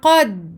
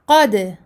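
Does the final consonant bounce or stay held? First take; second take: held; bounced. First: The final consonant is held with no release bounce. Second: The final consonant is released with an echoing bounce. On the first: The speaker calls it right. "Je bloque" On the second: The speaker calls it wrong. "Je ne dis pas qad"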